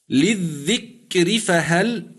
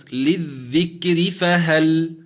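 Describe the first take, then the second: First: للذكر فهل slow again, rising on للذكر; slow recitation. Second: للذكر فهل drawn out, ra with kasra thinned in joining; slow recitation. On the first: Sheikh repeating the example for the student, very slowly. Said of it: "الراء مكسورة ولكن ما قبلها ساكن". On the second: Sheikh demonstrating joined recitation to the student, very slowly. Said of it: "أما كلمة". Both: Shown as a demonstration.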